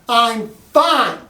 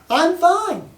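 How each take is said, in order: First: It sounds irritated, like she wants space. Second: It sounds cheerful, like she is doing well.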